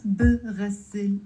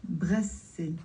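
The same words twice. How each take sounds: First: "بغسل" wrongly as three syllables, buh-ras-sil; mistaken extra vowel. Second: "بغسل" as bras-sil, no vowel after b; two-syllable pronunciation. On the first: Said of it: "It's not بغسل". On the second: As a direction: run the b straight into the next consonant of "بغسل". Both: Shown as a demonstration.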